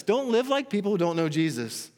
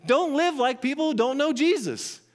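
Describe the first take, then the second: First: Said in the usual way. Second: Emphatic command. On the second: Acted. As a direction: hammer home the warning, punch "live". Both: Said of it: "It's, it's emphatic when he says".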